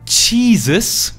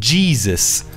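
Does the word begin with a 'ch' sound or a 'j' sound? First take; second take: ch; j. First: The word begins with a voiceless 'ch' sound. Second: The word begins with a voiced 'j' sound. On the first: "Jesus mit Käse" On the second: "Jesus mit J"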